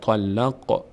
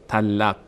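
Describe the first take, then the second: First: The final q ends with a slight bounce. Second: The final q stops flat without vibration. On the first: The speaker calls it right. "قاف رو مقداری میلرزانیم" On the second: The speaker calls it wrong. "نمیگیم طلق طلق"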